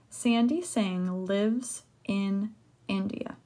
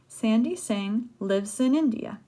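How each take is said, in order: First: Each word is said separately without linking. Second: The words run together, linked like one word. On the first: The speaker calls it wrong. "I don't pronounce it like that" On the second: The speaker calls it right. "I say, ... This is almost like one word"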